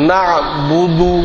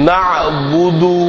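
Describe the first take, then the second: The two takes are said the same way.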